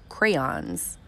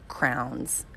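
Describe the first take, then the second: First: The word sounds like crayons, with two syllables. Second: The word sounds like crowns, in one syllable. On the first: "Most people call them crayons" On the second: "I call them crowns"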